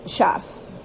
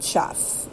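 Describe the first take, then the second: First: Chef said the German way, with a hard sh and short e. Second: Chef said the English way, softer and half whispered. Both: Shown as a demonstration. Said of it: "means boss, not Chef".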